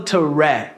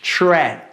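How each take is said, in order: First: A vowel separates the t from the r. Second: The t and r blend into a ch-like sound. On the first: The speaker calls it wrong. "a gente não fala to ra" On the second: The speaker calls it right. "A gente fala ch, ch, tra"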